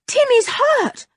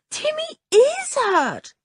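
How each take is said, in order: First: Said in the usual way. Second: High and slow, with a touch of tears; girl repeating to her father, near tears; tearful insistence. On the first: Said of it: "said George". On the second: Acted. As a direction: plead it again, close to crying. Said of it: "said George with tears in her voice".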